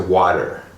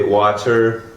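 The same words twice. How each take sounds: First: The middle T is a quick, soft D. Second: The middle T is a crisp, clear T. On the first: This is how it is said in the United States. "in the United States we say water" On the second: This is how it is said in England. "in England or maybe some other countries, they might say water"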